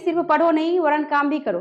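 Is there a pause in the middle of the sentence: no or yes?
no. It runs on without a pause in the middle. The speaker calls it wrong. "ऐसे नहीं कहेंगे"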